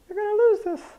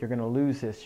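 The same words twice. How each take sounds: First: It is said in a Mickey Mouse voice. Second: It is said in a normal nagging voice.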